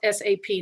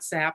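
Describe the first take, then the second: First: The name is spoken as three separate letters. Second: The name is spoken as a single word. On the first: The speaker calls it right. "it's S A P" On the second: The speaker calls it wrong. "not S A P"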